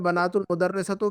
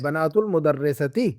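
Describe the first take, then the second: First: The last word ends in a u vowel. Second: The last word ends in an i vowel. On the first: The speaker calls it wrong. "फिर इसके पहले आपने बनातुल मुदर्रिसतो क्यों पढ़ा था?" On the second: The speaker calls it right. "मुदाफ इले को हमेशा मजरूर पढ़ना है"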